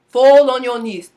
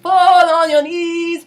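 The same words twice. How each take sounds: First: The vowels are shaped with a narrow mouth. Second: The vowels are shaped with a wide mouth. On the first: The speaker calls it right. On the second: The speaker calls it wrong. "the wide version"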